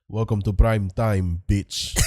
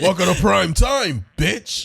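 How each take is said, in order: First: It is said in a Dracula-like voice. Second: It is said in a Freddy Krueger voice.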